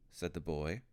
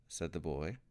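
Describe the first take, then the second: No difference in how they are said.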